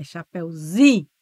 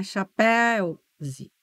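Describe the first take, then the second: First: "chapéuzinho" with a loud, strong zi; stress on ZI. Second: "chapéu, zi" stressed on péu, weak zi; wrong stress. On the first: Teacher correcting the stress for students, stress on zi. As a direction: hit the zi in "chapéuzinho". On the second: Teacher showing students what it is not, wrong stress. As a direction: lean on péu and drop zi in "chapéu, zi". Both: Shown as a demonstration. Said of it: "a sílaba tônica é o zi".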